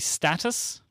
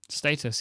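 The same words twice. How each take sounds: First: The word is said with an American pronunciation. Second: The word is said with a British pronunciation. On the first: "Would it be status?" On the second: "another Britishism of yours"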